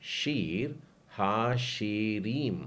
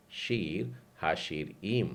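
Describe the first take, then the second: First: शीर हाशिरीम drawn out slowly, each syllable clear; teacher spells शीर हाशिरीम slowly for the class; slow syllable demo. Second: शीर हाशिरीम said again, smoother and joined; Hebrew name repeated. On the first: Teacher drills the class, slow syllables. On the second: Teacher repeats it for students, joined up. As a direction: say शीर हाशिरीम once more as one word. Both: Shown as a demonstration. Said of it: "उच्चारण क्या बोला हमने इसका".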